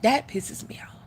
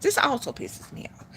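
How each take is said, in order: First: Hushed whispered complaint; breathy annoyed whisper. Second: Said in the usual way. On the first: Shown as a demonstration. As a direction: whisper it like a secret gripe.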